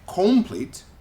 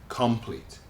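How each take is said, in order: First: The unstressed vowel is a full, clear vowel. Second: The unstressed vowel is reduced to a schwa. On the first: The speaker calls it wrong. "We don't say complete" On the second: The speaker calls it right. "We say complete"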